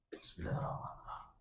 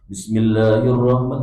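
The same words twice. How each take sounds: First: It is said quietly. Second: It is said loudly.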